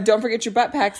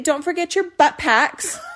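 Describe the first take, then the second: First: It is said in a plain voice. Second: It is said in a Valley girl voice.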